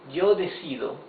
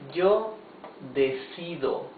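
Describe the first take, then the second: First: It is read at a faster pace. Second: It is read at a slower pace.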